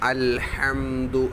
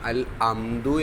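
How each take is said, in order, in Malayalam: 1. രണ്ടാമത്തെ വാക്ക് h ശബ്ദത്തോടെയാണ് തുടങ്ങുന്നത്. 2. രണ്ടാമത്തെ വാക്ക് h ശബ്ദമില്ലാതെയാണ് തുടങ്ങുന്നത്. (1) "ഹ ആണ്" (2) "അൽ അംദു എന്ന് ഓതുന്നവരുണ്ട് ... അതൊക്കെ തെറ്റാണ്"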